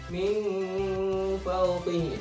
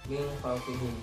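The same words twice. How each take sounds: First: The nasal hum on the n is drawn out. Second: The nasal hum on the n is brief. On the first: The speaker calls it wrong. "bukan ... itu salah" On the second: The speaker calls it right. "samarnya itu sekedarnya saja"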